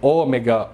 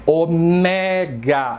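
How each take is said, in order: First: The stress is on the first syllable. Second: The stress is on the second syllable. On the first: This is how Brazilians say it. The speaker calls it wrong. "como os brasileiros falam" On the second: This is how it is said in Greek. The speaker calls it right. "É uma paroxítona e não uma proparoxítona"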